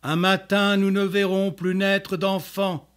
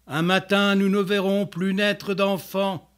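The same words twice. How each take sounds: The two takes are said the same way.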